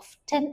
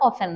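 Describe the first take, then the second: First: A t sound is heard in the middle. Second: No t sound is heard in the middle. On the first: The speaker calls it wrong. "ഓഫ്റ്റൻ എന്നൊന്നല്ല" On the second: The speaker calls it right. "ഓഫൻ എന്നാണ്"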